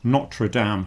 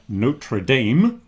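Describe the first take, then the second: First: It is said without the American pronunciation. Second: It is said with an American pronunciation.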